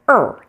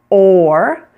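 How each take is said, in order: First: The vowel is a short, reduced schwa sound. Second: The vowel is a full, long O sound. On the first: "the shorter variety, like the schwa" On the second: "completely with the long O sound"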